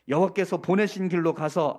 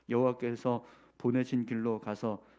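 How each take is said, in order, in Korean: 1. 크고 극적인 연기 톤으로 읽어요. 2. 담담하고 고른 목소리로 읽어요.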